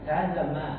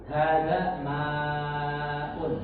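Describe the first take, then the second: First: The vowel in 'ma' is kept short. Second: The vowel in 'ma' is drawn out long. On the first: The speaker calls it right. "Mereka hanya hada ma" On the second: The speaker calls it wrong. "Mereka nggak ada yang panjang sampai ma'un"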